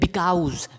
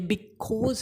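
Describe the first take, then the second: First: The second vowel sounds like 'ow'. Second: The second vowel sounds like 'aw'. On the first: The speaker calls it wrong. "बिल्कुल ही गलत है" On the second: The speaker calls it right. "ये बिकॉज है"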